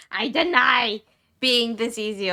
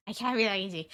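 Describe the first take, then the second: First: Mock denial. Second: Said in the usual way. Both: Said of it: "I'm in denial".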